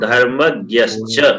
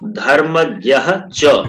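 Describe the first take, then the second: First: The two words are joined into one. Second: The two words are said separately.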